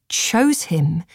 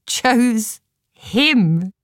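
First: Said in the usual way. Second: "Chose him" drawn apart, with HIM lifted high; emphatic repeat. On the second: A narrator's reading. Narrator marvels the spirit picked Ticklock, stress on "him". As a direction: pause after "Chose", then lean on "him" in higher pitch.

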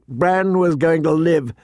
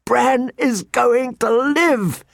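First: Said in the usual way. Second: Slow, high-pitched jubilant whoop. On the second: A narrator's reading. Jon spins Tyrion round with the news, whooping. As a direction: whoop it out high and long, overjoyed. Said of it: "he whooped".

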